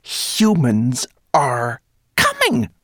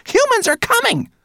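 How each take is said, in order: First: Slow, loud, high proclamation; shrill squeak. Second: Piercingly high, loud alarm; shrill shriek. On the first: Rat warning the whole cave, slow shrill squeak. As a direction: announce it word by word, squeaking up. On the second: Rat screaming the warning at brownie, shrill. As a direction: shriek it out at the top of your range. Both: A narrator's reading. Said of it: "she squeaked so shrilly".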